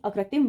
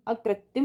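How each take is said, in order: First: अकृत्रिम with tr in the last syllable; correct pronunciation. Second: अकृत्रिम with t and no second r; wrong pronunciation. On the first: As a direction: say अकृत्रिम as a-krit-trim. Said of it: "अकृत्रिम होगा". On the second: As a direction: say अकृत्रिम as a-krat-tim. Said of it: "अकृत्रिम नहीं". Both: Shown as a demonstration.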